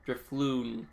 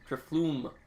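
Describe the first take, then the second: First: The word ends with an n sound. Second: The word ends with an m sound. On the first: The speaker calls it right. "Guess I'm saying that right?" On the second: The speaker calls it wrong. "No, no, not that. That's an M"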